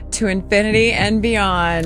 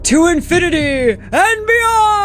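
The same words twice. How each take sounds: First: It is said flatly, with little energy. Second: It is said loudly, with lots of energy.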